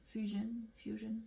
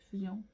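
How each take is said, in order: First: Fusion said the English way, "FYOO-zhun"; English pronunciation. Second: Fusion said the French way, "fu-zyon"; French pronunciation. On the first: Vlogger trying accents on a product name, English pronunciation of Fusion. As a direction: Fusion with an English "zh" and weak final syllable. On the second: Vlogger trying accents on a product name, French pronunciation of Fusion. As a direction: Fusion with French u, "z-y" and nasal final vowel. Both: Shown as a demonstration. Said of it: "Ça dépend à quel accent vous prenez".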